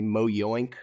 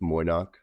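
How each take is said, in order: First: The name ends with a 'yoink' sound. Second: The name ends with a short 'nock' sound. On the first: The speaker calls it wrong. "we had one guy say Mo Yoink" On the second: The speaker calls it right. "we just we we say it phonetically"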